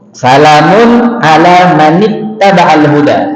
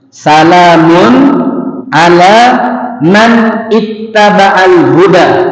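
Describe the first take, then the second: First: The words are linked together in one flow. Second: The words are said separately, not linked.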